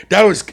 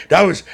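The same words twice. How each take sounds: The two takes are said the same way.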